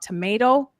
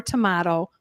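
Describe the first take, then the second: First: Tomato with a long AY in the middle; usual American tomato. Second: Tomato with a broad AH in the middle; alternative tomato. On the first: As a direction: say tomato to rhyme with potato. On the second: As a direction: say tomato as to-MAH-to. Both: Shown as a demonstration. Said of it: "having discussions about tomato or tomato".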